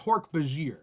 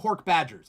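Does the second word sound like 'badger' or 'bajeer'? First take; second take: bajeer; badger. First: The second word ends like 'bah-jeer'. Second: The second word sounds like the animal 'badger'. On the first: The speaker calls it right. "I do think it's Hork Bajir" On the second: The speaker calls it wrong. "I used to call them Hork Badgers"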